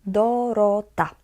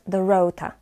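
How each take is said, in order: First: The O vowels are short and pure. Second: The O vowels glide like English diphthongs. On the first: The speaker calls it right. "we read it always as O, simply O" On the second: The speaker calls it wrong. "so it's not Dorota, like I've heard a lot when I used to live in London"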